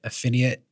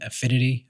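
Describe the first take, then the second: First: The word ends with an 'ee-ate' sound. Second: The word ends with an 'itty' sound. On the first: The speaker calls it wrong. "I'm calling it affiniate" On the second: The speaker calls it right. "instead of calling it affinity"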